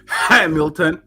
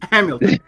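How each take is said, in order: First: The word begins with an audible H sound. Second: The word begins without any H sound. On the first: The speaker calls it wrong. "It's not" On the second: The speaker calls it right. "That's how you say it"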